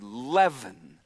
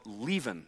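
First: The first vowel is short, as in 'led'. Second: The first vowel is long, as in 'leave'. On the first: The speaker calls it right. "but it's actually leaven" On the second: The speaker calls it wrong. "You might mispronounce it and call it leaven"

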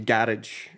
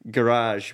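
First: It is said in a Scottish accent. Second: It is said in a non-Scottish accent. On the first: "We say garage" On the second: "an example was like"

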